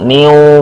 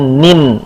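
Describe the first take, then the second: First: The syllable ends in a vowel sound. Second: The syllable ends in a clear n sound. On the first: The speaker calls it wrong. "niu, bukan" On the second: The speaker calls it right. "dibacanya nin"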